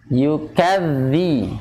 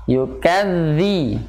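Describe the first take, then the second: Both takes have the same delivery.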